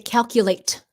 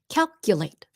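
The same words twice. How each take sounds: First: The final T is audibly released. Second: The final T is stopped, not released. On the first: The speaker calls it wrong. "So we don't say calculate" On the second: The speaker calls it right. "The T at the end, stopped T"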